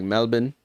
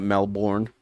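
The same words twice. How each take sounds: First: "Melbourne" with a reduced last syllable, MEL-bun; local pronunciation of Melbourne. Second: "Melbourne" with a full last syllable, MEL-born; spelling pronunciation of Melbourne. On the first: Streamer showing a word they can pronounce, "Melbourne" said MEL-bun. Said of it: "I can say Melbourne correctly". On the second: Streamer showing the wrong way, "Melbourne" said MEL-born. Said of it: "not Melbourne". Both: Shown as a demonstration.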